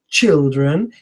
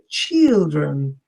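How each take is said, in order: First: The first vowel is a short i sound. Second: The first vowel is between short and long. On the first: "he didn't say short children" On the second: "that was neither long nor short"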